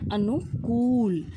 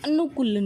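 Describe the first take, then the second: First: The vowel of the last syllable is long. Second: The vowel of the last syllable is short. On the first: The speaker calls it right. "क पे लंबी sound आती है ... अनु जल्दी बोला जाता है और कूल देर में" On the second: The speaker calls it wrong. "अनुकूल नहीं होता"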